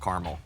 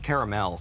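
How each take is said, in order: First: The word has two syllables, middle vowel dropped. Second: The word has three syllables, middle vowel pronounced. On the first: This is a plain, generic caramel flavor. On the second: This is a rich, deep caramel flavor.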